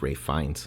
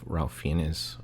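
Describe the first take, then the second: First: The first name rhymes with safe, without L. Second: The first name is said with an L sound. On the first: The speaker calls it right. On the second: The speaker calls it wrong.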